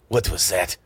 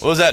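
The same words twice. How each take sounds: First: It is spoken with a harsh Russian accent. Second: It is spoken with no foreign accent. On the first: "they've got their Russian accent" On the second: "there's no accents"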